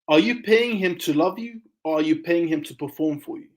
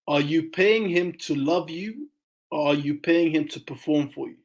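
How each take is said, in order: First: It is said at normal speed. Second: It is said slowly and deliberately.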